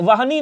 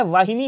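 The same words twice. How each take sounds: First: वाहिनी without the middle i, "vah-ni"; wrong, vowel dropped. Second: वाहिनी with clear i, "va-hi-ni"; correct middle vowel. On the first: Teacher showing students the error, वाहिनी as "vah-ni". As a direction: say वाहिनी as "vahani". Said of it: "नहीं होता है". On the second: Teacher correcting students, वाहिनी as "va-hi-ni". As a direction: sound the i after h in वाहिनी. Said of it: "होता है". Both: Shown as a demonstration.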